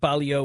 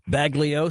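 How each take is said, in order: First: The name is said with Italian pronunciation. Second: The name is said with American pronunciation. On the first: This is how the name is said in Italy. "Baglio would be the Italian pronunciation" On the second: This is the name the bearer chooses to use in America. "Matt chooses to be called Baglio"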